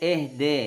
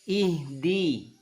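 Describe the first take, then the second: First: The vowels are open, e-like sounds. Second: The vowels are clear, pure i sounds. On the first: The speaker calls it wrong. "jangan eh de" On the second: The speaker calls it right. "sempurnakan bunyi i jangan eh"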